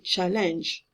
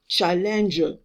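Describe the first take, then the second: First: The word stops on the final consonant. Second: A vowel is sounded after the final consonant. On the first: The speaker calls it right. "I stop at j. ... I say challenge" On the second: The speaker calls it wrong. "I don't say challenger"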